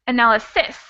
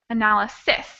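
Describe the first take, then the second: First: The stress is on the last syllable. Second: The stress is on the last syllable.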